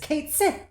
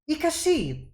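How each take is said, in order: First: The name sounds like 'kate sith'. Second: The name sounds like 'ka-shee'. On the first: The speaker calls it wrong. "in common you would mispronounce it as Kate Sith" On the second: The speaker calls it right. "I am Ikashi"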